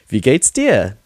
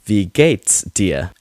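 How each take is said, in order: First: It is said confidently with lively inflection. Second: It is said flatly, like a robot. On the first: "with inflection" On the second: "as robotic as I do"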